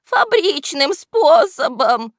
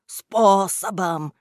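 First: High, slow, loud henchman voice; whining excuse. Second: Slow, drawn-out jeer on "Способом"; mocking echo. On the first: Henchman justifying himself to his boss, high defensive whine. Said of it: "оправдывался вреднюга". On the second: Boss mimicking henchman's excuse, slow mocking echo. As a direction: repeat his word back mockingly, stretching it. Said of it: "передразнил его Кляксич". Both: A narrator's reading.

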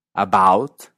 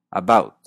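First: "About" with an open aw; American "About". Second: "about" with a raised vowel; Canadian "about". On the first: ("About" estadounidense) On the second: ("about" canadiense) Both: Shown as a demonstration. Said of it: "Escucha la diferencia".

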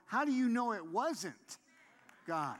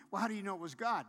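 First: "wasn't" punched high and loud; loud, raised challenge with stress on "wasn't", then a drop on "God"; emphatic retort. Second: Said in the usual way. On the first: Acted. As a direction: throw the question back, hitting "wasn't" hard. Throws the doubter's question back.

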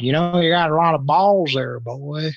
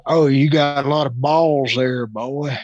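First: Gruff drawled rebuke, a bit louder; hint of an old teacher scolding; lightly voiced teacher; mock stern teacher. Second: Hint of a stern teacher; drawled rebuke, lightly voiced; mock old teacher. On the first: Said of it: "But he said". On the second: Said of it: "And his response was".

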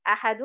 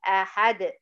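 First: "أحد" as a-ha-dun; tanween as n. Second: "أحد" as a-had with echoing d; stopped with qalqalah. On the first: Teacher recapping the full word, "أحد" said ahadun. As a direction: end "أحد" on a sounded -un. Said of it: "تبقى إيه". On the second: Teacher answering the recap, "أحد" with qalqalah. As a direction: cut -un, bounce the d of "أحد". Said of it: "هذه القلقلة". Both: Shown as a demonstration.

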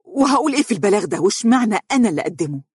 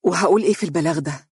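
First: High, fast, outraged question; resentful, rapid exclamation; indignant. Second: Dazed, will-less repetition; lifeless, submissive question; as if hypnotized. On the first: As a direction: protest it in disgust. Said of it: "هتفت ساخطة". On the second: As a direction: say it like a sleepwalker, defeated. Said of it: "قالت وكأنها منومة وقد انتزعت إرادتها". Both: Acted.

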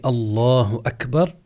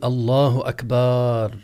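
First: Said in the usual way. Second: أكبر with the final syllable stretched, akbaar; wrong long vowel. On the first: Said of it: "يمد الباء عند قوله". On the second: Shown as a demonstration. Teacher shows students the invalid takbir, stretched akbaar. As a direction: draw out the "ba" in أكبر into a long "baa". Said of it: "لا يصح أن يقول".

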